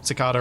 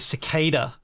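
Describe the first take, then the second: First: It is said with a UK accent. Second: It is said with a North American accent.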